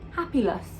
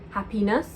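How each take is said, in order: First: The consonant before the last syllable is L. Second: The consonant before the last syllable is N. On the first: The speaker calls it wrong. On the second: The speaker calls it right.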